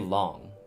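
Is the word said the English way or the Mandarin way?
English. The word is said with English-style pronunciation. The speaker calls it wrong. "You don't say long"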